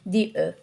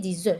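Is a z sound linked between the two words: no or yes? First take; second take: no; yes. First: No z sound links the two words. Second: A z sound links the two words. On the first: The speaker calls it wrong. "Ce n'est pas des, des, des E" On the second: The speaker calls it right. "on fait la liaison de voyelles. Ça se prononce Z"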